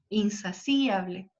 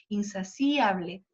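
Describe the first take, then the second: First: The i and a form separate syllables. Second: The i and a form separate syllables.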